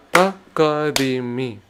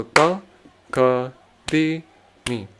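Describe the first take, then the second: First: Ta, ka, di, mi run together in quick pairs; two syllables per count. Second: Ta, ka, di, mi spaced out with a pause between pairs; one syllable per count. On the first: Teacher doubling the rhythm syllables, two per beat, quicker. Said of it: "Then I go two per count". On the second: Teacher counting out rhythm syllables, one per beat, spaced. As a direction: lay each syllable on its own beat, unhurried. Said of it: "I'm just going one syllable per container". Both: Shown as a demonstration.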